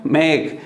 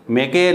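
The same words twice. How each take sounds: First: मेक as one syllable ending on k; silent final E. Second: मेके in two syllables, "may-kay"; final E wrongly sounded. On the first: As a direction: stop मेक on the k. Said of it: "ई का sound नहीं होता". (मेक में आखिरी ई silent) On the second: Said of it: "मेके नहीं". (मेके में आखिरी ई का गलत उच्चारण) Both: Shown as a demonstration.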